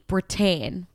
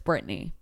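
First: The name ends in a short 'un' sound. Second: The name ends in a 'nee' sound. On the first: The speaker calls it wrong. "I keep pronouncing Britain" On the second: The speaker calls it right. "But it's Brittany"

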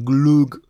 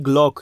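First: The vowel sounds like u. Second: The vowel sounds like o. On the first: "nie glug" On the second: "Nie glok"

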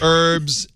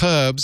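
First: It is said with a silent h, American style. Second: It is said with a sounded h, British style.

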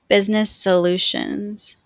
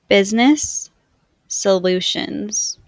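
First: The words are joined smoothly with no break. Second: The words are said with a break between them. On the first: "in a more fluid way to demonstrate linking" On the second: "I will say the words with a space in between"

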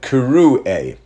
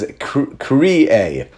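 First: The first vowel is an 'oo' sound. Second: The first vowel is an 'ee' sound. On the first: This is how the word is actually read aloud. "it's pronounced as if it was spelled with a vav" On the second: This is how the written spelling would read. "spelled in the Chumash with a yud, as if it says kri'e"

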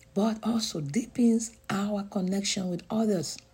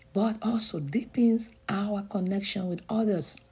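No difference in how they are said.

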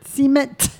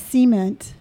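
First: The T sound is clearly pronounced. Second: The T sound is weak or dropped. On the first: The speaker calls it right. "Pronounce the T. There you go" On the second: The speaker calls it wrong. "The way you pronounce that word is troublesome. There's no emphasis on the T"

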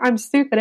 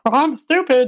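First: It is said in a plain, normal voice. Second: It is said in a silly, funny voice.

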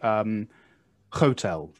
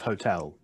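First: The first syllable is stressed: HO-tel. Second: The second syllable is stressed: ho-TEL. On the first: The speaker calls it wrong. "like hotel instead of hotel" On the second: The speaker calls it right. "Russian people tend to stress the first syllable"

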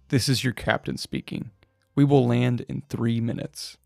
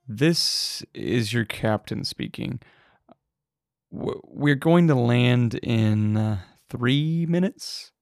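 First: The voice is steady and confident. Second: The voice is shaky and hesitant.

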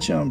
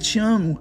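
First: It is said quickly and casually. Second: It is said warmly and with feeling.

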